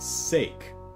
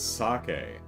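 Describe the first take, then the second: First: It is said with American English pronunciation. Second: It is said with Japanese pronunciation. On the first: The speaker calls it wrong. "using, uh, you know, Eng- American English uh, uh, rules for pronunciation rules" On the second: The speaker calls it right. "oh, it's sake. Oh, I read that wrong the entire time"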